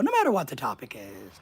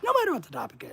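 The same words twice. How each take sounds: First: Said in the usual way. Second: No matter what the topic is, with no punched high and falling; higher pitched emphatic repeat; stress on no. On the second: Shown as a demonstration. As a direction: lift no high then let it fall.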